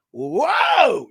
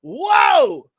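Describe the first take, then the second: First: Startled shout. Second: High, loud shouted whoa; outraged shout. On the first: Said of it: "it just fucking kicks in". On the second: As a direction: blast the whoa at her, outraged. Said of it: "and I go". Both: Retold or imitated.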